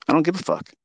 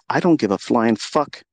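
First: "don't" punched and pitched higher, falling at the end; stress on DON'T. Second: "don't" hit hard, the line slowed down and rising; stress on DON'T. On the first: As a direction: repeat it sharper, higher on "don't". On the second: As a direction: lean into "don't" with slow defiance. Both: Real, not acted.

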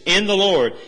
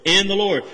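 First: "the" in "in the Lord" leaned on; stress on THE. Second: "in" in "in the Lord" leaned on; stress on IN. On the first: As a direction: press the word "the". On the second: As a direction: hit the word "in" first. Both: Shown as a demonstration. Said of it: "Notice the emphasis".

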